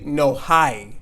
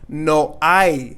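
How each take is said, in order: First: The word hay starts with an audible h sound. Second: The word hay starts with no h sound. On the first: The speaker calls it wrong. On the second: The speaker calls it right.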